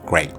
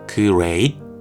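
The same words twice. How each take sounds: First: It is pronounced smoothly, like a native speaker. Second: It is pronounced stiffly, like a beginner reading letters. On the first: It copies the sound actually heard. The speaker calls it right. "great라는 실제의 소리는" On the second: It is built from the letters in one's head. The speaker calls it wrong. "영어 초보자의 머릿속에는 이 정도 수준의 경우의 수가 존재할 겁니다"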